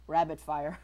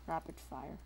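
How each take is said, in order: First: "Rabbit" with a B in the middle; slip repeated as rabbit. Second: "Rapid" with a P in the middle; intended word rapid. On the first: Player replaying their slip, "Rabbit" said loudly with a B. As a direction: say "Rabbit" louder, with a clear B. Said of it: "I think I said rabbit". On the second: Player correcting their slip, "Rapid" said with a P. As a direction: say "Rapid" softly, crisp P. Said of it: "I mean, rapid". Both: Shown as a demonstration.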